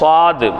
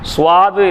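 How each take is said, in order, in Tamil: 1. இது வெறும் 's' ஒலியுடன் தொடங்குகிறது, 'w' glide இல்லை. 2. இது 's' ஒலியுடன் தொடங்கி, அதன் பின் 'w' glide வருகிறது. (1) "அது சுவாது இல்லை, சாது" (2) "சுவாது இல்லை"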